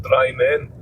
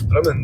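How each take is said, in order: First: "Dry Men" with a long i and full "men"; mistaken literal pronunciation. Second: "Drimmen" as DRIM-men, weak second syllable; Drimmen pronunciation. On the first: Driver showing the misreading, "Dry Men" as two words. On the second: Driver naming the village, "Drimmen" with short DRIM. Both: Shown as a demonstration. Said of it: "not Dry Men".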